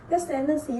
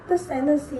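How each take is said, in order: No difference in how they are said.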